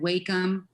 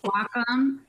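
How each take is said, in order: First: The first syllable sounds like 'way'. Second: The first syllable sounds like 'wah'. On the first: "a lot of people call it Wacom. Um, I'm not sure why. I don't see the Y in there" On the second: "it's Wacom, and it's a compound word"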